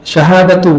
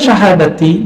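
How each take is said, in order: First: The word ends with a 'u' vowel. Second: The word ends with an 'i' vowel. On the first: It starts a new sentence. "Syahadatu boleh. Berarti kalimat baru" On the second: It is an appositive to the word for five. "Kalau dibaca syahadati namanya badal"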